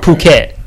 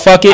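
First: It begins with a P sound. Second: It begins with an F sound. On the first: The speaker calls it right. "look at it as like P-U-K-E-T" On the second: The speaker calls it wrong. "looked like it's called Fuck It"

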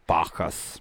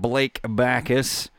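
First: The surname is said as 'Bacchus', with a fancy foreign sound. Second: The surname is said plainly as 'back-us', the way it is spelled. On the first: The speaker calls it wrong. "Something I'm like German, yeah, French" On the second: The speaker calls it right. "I said that right, right?"

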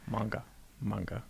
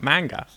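First: The syllables are said flat and even. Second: One syllable carries a strong stress. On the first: The speaker calls it right. "so like I'm really bored while I'm saying" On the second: The speaker calls it wrong. "So it's definitely not manga"

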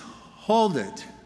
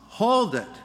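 First: It is said at a fairly quiet level. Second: It is shouted at full volume.

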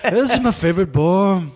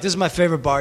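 First: It is said in a Liverpool-like British accent. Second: It is said in the speaker's own plain accent.

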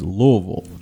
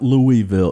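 First: The name is said shortly, as Lou-vol. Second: The name is said fully, not as Lou-vol. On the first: The speaker calls it right. "Just say Lou and Vol" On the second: The speaker calls it wrong. "it's not Louisville"

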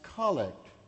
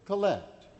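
First: The stress is on the first syllable. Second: The stress is on the second syllable.

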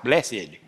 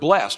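First: It is said the Southern way. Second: It is said in a standard, non-Southern way.

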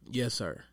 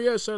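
First: It is said relaxed, like normal conversation. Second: It is barked sharply like a military command. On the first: It is ordinary everyday politeness. The speaker calls it right. "just a regular conversation" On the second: It is rigid, formal obedience. The speaker calls it wrong. "drill army type"

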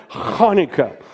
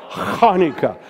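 Both takes have the same delivery.

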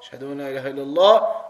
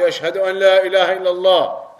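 First: It is said quietly. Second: It is said loudly.

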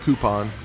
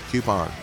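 First: The word begins with a plain 'koo' sound. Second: The word begins with a 'kyoo' sound. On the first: The speaker calls it wrong. "Not coupon" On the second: The speaker calls it right. "There's a Q in there"

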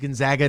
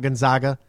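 First: The middle syllable sounds like the word 'zag'. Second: The middle syllable does not sound like 'zag'. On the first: The speaker calls it right. "it is Gonzaga ... you're supposed to say Zaga" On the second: The speaker calls it wrong. "not Gonzaga"

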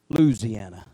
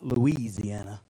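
First: It is said in the local Louisiana way. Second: It is said in a non-local way. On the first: The speaker calls it right. "like we used to say in Louisiana" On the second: The speaker calls it wrong.

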